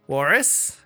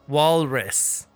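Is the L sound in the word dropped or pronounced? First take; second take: dropped; pronounced. First: The word is said without an L sound. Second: The word is said with an L sound. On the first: The speaker calls it wrong. "Why are you saying walrus really weird?" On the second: The speaker calls it right. "It has an L in it"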